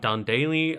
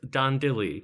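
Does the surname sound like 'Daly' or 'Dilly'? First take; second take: Daly; Dilly. First: The surname sounds like 'Daly'. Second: The surname sounds like 'Dilly'. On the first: The speaker calls it wrong. "It's not, in fact" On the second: The speaker calls it right. "I believe it's"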